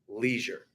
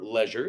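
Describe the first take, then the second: First: It is said with a plain American pronunciation. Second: It is said with a posh British pronunciation.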